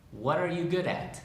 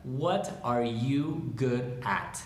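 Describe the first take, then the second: First: Said in the usual way. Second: Word by word, slowly; slow dictation. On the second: Shown as a demonstration. Teacher modelling the question for learners, slow and separated. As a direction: space out every word of the question. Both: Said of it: "Esa es la pregunta".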